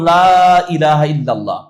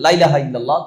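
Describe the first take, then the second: First: The vowel of 'la' is drawn out long. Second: The vowel of 'la' is clipped short. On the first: It denies: there is none. The speaker calls it right. "লা টানলে অর্থ হয় কি নাই" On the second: It affirms: there certainly is. The speaker calls it wrong. "লা না টেনে যদি বলে"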